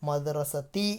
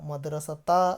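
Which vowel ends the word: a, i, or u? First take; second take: i; a. First: The word ends in the vowel i. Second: The word ends in the vowel a. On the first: The speaker calls it right. "മദ്റസത്തി എന്നാണ് വരിക" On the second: The speaker calls it wrong. "മദ്റസത്ത അല്ല വരിക"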